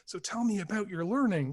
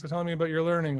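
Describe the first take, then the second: First: It sounds like a genuinely interested question. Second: It sounds like a hurried, perfunctory greeting. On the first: The asker truly wants to hear the answer. The speaker calls it right. "are we asking" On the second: The asker has no time and wants no real answer. The speaker calls it wrong. "or are we saying"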